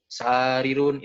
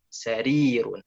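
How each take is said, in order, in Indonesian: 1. Suku kata tengah tidak ditekankan. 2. Suku kata tengah yang panjang ditekankan. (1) "Bukan sarirun, itu salah" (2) "Nah, itu ya"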